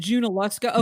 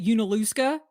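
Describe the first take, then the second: First: The name begins with a J sound. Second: The name begins with a vowel sound. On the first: The speaker calls it right. "so it's Junaluska" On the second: The speaker calls it wrong. "I've always called it Unaluska"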